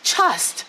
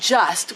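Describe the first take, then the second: First: The word begins with a voiceless CH sound. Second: The word begins with a voiced J sound. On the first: "We say chust, like C H" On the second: "we don't say the word J as in just"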